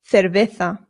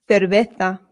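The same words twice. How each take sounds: Both takes have the same delivery.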